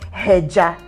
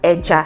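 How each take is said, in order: First: The word starts with an h sound. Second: The word starts directly with the vowel. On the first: The speaker calls it wrong. "you don't say heja" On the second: The speaker calls it right. "it's pronounced as eja"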